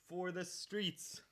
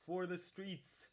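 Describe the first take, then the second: First: Even slower, stretched out; slower dramatic. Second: Drawn out slowly; slow, higher, drawn-out rally cry; slow dramatic. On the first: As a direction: drag it out, higher and very slow. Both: Pretend. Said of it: "repeated rallying line".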